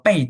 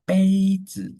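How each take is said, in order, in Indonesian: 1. Suku kata pertama memiliki nada turun. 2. Suku kata pertama memiliki nada tinggi datar.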